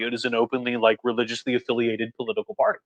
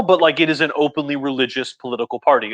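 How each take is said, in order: First: Dropped to a soft aside; quieter restatement. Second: Said in the usual way. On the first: Real, not acted. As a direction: say it again under your breath. Restates the same point, quieter.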